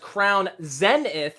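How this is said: It is said with a British English pronunciation. "is the British English pronunciation"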